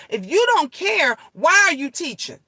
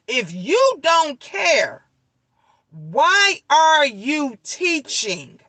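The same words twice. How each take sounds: First: Said in the usual way. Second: "If you don't care, why are you teaching?" much slower, each word spaced and weighted; slow emphatic repeat. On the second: Real, not acted. Hammering the point to viewers about teachers, slow and emphatic.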